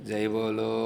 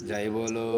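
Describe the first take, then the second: No difference in how they are said.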